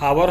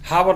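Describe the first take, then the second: First: The word begins with a vowel sound. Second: The word begins with an h sound. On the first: The speaker calls it right. "एच silence हो जा रहा हो" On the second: The speaker calls it wrong. "हम हावर नहीं लिखेंगे"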